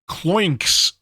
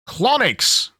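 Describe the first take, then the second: First: It sounds like one syllable, cloinks. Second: It sounds like the word colonics. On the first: The speaker calls it right. "Cloinks is the better pronunciation" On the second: The speaker calls it wrong. "that's not how you pronounce it"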